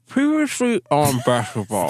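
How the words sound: It is said as if around a cigarette.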